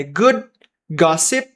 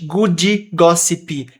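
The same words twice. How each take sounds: First: 'good gossip' with D and P barely released; unreleased final consonants. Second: 'Good gossip' as 'goodee gossipee', slowly; extra end vowels. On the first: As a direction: stop 'good' and 'gossip' short of an added vowel. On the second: Teacher showing learners the wrong way, 'Good gossip' with extra end vowels. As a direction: add an 'ee' after the D and P in 'Good gossip'. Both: Shown as a demonstration. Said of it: "a gente não tá falando eles inteiramente".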